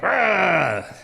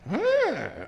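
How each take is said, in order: First: It is growled harshly. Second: It is said gently and nicely.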